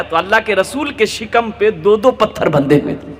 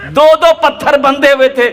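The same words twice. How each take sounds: First: Said in the usual way. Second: Higher, louder repeat punching दो दो; stirring the congregation; raised preaching emphasis. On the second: A narrator's reading. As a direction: cry out "दो दो पत्थर बंधे हुए थे" with force on दो दो.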